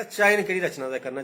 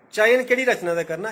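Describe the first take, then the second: First: Said in the usual way. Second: चयन केह्ड़ी रचना दा करना said high and loud, चयन punched; emphatic first take. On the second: Real, not acted. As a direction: hit चयन hard and high. Repeats the key phrase. (चयन पर जोर, उच्ची ते जोरै कन्नै)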